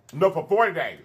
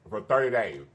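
First: Forty hit as the correction; stress on forty. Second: Said in the usual way. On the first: Real, not acted. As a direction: correct yourself, leaning on forty.

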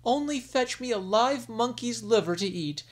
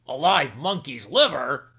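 First: Higher, coaxing request; queen wheedling her husband; pleading queen. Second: Louder, startled outburst; king aghast at his wife's request; shocked exclamation. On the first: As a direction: ask sweetly for the liver. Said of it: "the sick queen said". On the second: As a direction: repeat it in disbelief. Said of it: "exclaimed the king". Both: Acted.

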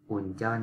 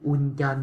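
First: "Uncheon" said the right way, pitch down; correct pronunciation. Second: "Uncheon" said high and loud, the mistake; "Uncheon" jumped up in pitch, as learners wrongly say it; wrong pronunciation. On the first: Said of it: "Uncheon" không có đọc là". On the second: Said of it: "không có đọc là". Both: Shown as a demonstration.

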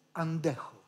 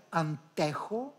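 First: "αντέχω" with a voiced nd, an-de-cho; correct nd pronunciation. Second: "αντέχω" with separate n and hard t; spelling pronunciation. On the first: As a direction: say "αντέχω" with d in place of t. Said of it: "και προφέρουμε". («αντέχω» με νι-ντ) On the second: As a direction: say "αντέχω" as written, an-te-cho. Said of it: "γράφουμε αντέχω και προφέρουμε". («αντέχω» με καθαρό νι-ταφ) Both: Shown as a demonstration.

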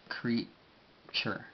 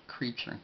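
First: Creature split slowly into crea and ture; drawn-out teacher's demo of creature; sounded-out English. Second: Said in the usual way. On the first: Shown as a demonstration. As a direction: pause between the syllables of creature. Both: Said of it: "se diría en inglés".

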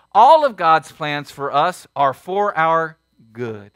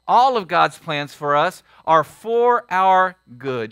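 First: Slow, weighty, stress on ALL; emphatic truth. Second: Slow, weighty, ALL stressed again; emphatic repeat. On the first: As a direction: lay it down slowly. Preacher repeats key truth. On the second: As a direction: drive the truth home. Congregation-style repeat of truth. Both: Acted.

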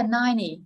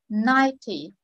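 First: Ninety said as NINE-ee; American ninety with the T swallowed; American dropped T. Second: Ninety as NINE-tee with a crisp T; Ninety with a true T, falling off; first-syllable stress, clear T. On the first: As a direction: drop the T in ninety, American style. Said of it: "Người Mỹ là". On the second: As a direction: stress the start of Ninety and keep the T. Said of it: "nhấn trọng âm số một". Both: Shown as a demonstration.

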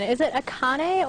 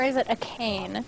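First: Akane said ah-KAH-nay, in three syllables; pronunciation check. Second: Akane said uh-KANE, rhyming with "cane"; alternative pronunciation. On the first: Player asks hosts to correct pronunciation, Akane as ah-KAH-nay. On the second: Player offers hosts the other pronunciation, Akane as uh-KANE. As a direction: say "Akane" as uh-KANE, with a silent final e. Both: Shown as a demonstration. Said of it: "correct me on pronunciation".

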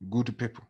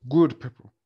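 First: Said in the usual way. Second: Good people with a louder, fuller good; stress on good. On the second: Shown as a demonstration. Lecturer teasing the good students, leaning on good. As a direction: lean on good, teasing the class.

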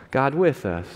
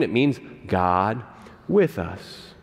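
First: Said in the usual way. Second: It means God with us, lower and slow, leaning on "with"; "with" drawn out low and weighty; slow emphatic. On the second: Shown as a demonstration.

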